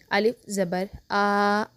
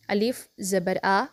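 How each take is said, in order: First: "अलिफ ज़बर आ" with the आ clipped in a jerk; wrong jerked vowel. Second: "अलिफ ज़बर आ" slow, short आ without jerk or stretch; correct normal reading. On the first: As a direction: demo of the wrong jerky reading. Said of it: "ऐसे नहीं पढ़ना". ("आ" को झटका देकर गलत पढ़ना) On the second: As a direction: show the right even reading. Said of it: "बिल्कुल normal तरीके से पढ़ेंगे". ("अलिफ ज़बर आ" बिना झटके, बिना खींचे) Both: Shown as a demonstration.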